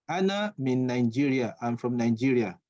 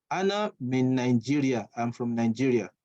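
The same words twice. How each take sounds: The two takes are said the same way.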